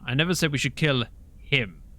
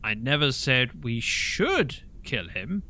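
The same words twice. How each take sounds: First: The stress is on "him". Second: The stress is on "should".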